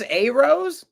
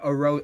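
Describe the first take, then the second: First: It is said in an odd put-on voice. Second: It is said in the speaker's natural voice.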